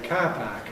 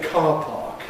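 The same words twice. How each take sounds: First: The long vowel has a front quality. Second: The long vowel has a back quality. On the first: "Australians say car park, car park, ah, ah, ah, front quality" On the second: "When we say car park in London, in R P"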